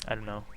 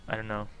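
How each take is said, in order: The two takes are said the same way.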